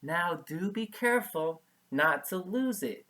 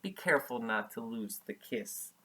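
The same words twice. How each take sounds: First: Light playful teasing warning. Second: Said in the usual way. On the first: Acted. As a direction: tease him gently, a little higher. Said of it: "she teased him". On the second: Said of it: "That means she was, it was a joke".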